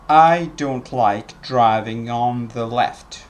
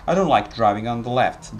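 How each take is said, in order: First: It is said slowly with full small words. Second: It is said quickly with reduced small words. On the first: The speaker calls it wrong. "if you pronounced very slowly you would pronounce" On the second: The speaker calls it right. "actually people say"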